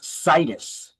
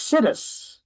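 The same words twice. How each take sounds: First: The first syllable does not sound like 'sit'. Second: The first syllable sounds like the word 'sit'. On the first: The speaker calls it right. "It's actually pronounced situs" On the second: The speaker calls it wrong. "I mispronounce this often as situs"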